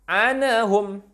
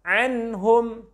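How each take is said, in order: First: The n bounces with an added vowel after it. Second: The n is pronounced clearly without any added effect. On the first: The speaker calls it wrong. "tidak memantul, tak boleh" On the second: The speaker calls it right. "yang benar"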